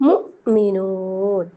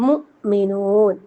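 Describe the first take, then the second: The two takes are said the same way.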